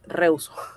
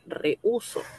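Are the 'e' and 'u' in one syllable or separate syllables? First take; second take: one syllable; separate syllables. First: The e and u merge into one syllable. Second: The stressed u is a separate syllable. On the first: The speaker calls it wrong. "Así como está" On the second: The speaker calls it right. "en realidad la palabra, como ustedes saben, es rehuso"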